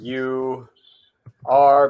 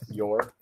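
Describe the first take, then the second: First: Both words are said fully and separately. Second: The two words merge into one short syllable. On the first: "you are becomes you're" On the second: "becomes you're"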